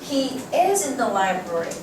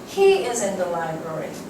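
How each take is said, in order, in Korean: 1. "is" 단어에 강세가 들어가요. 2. "he" 단어에 강세가 들어가요. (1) "있다니까 라고 얘기를 하는 거야" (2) "여기에 강세가 들어가서 ... 네가 찾는 그 사람은 도서실에 있어"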